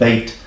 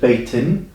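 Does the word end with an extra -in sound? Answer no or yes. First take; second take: no; yes. First: The word ends without the -in sound. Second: The word ends with an -in sound. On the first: The reader pauses after the word. "if you pause, you will not read this in at the end. You will just read bait" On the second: The reading continues directly after the word. "if you continue reading directly after the word, you will read it beitin"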